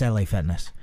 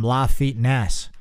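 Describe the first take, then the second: First: LA is spelled out as two letters. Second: LA is said as the single word 'la'. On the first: The name is an abbreviation. The speaker calls it right. "that's L A Fitness" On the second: The gym is taken to be Spanish. The speaker calls it wrong. "that Spanish gym"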